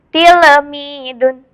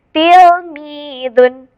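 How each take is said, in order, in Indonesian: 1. L dipantulkan dengan vokal tambahan setelah itu. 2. L ditahan dengan kuat tanpa vokal tambahan. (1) "kalau misalkan dipantulkan berarti seperti ini" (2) "Harus ditekan ketika membacanya"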